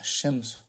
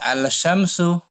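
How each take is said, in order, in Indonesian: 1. 'l' menyatu dengan bunyi 'sy'. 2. Bunyi 'l' pada artikel diucapkan sebelum 'sy'. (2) "jangan dibaca lamnya, jangan jangan al-syamsu"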